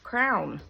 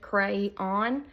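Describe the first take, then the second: First: It is said as one syllable, like crown. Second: It is said as two syllables, cray-on. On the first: "like a crown you wear on your head" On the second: "C R A Y dash O N"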